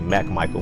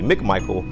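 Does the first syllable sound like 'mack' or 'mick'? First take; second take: mack; mick. First: The first syllable sounds like 'mack'. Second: The first syllable sounds like 'mick'. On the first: The speaker calls it wrong. "everybody usually always mispronounce my last name and say" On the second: The speaker calls it right. "when it's really"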